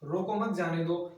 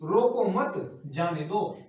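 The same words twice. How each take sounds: First: The words run on without any pause. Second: A short pause comes after the second word. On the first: The meaning is unclear. "यही नहीं पता पड़ रहा है कि कहना क्या चाह रहा है" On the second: Do not stop him, let him go. "रोको मत मतलब"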